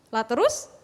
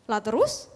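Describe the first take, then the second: No difference in how they are said.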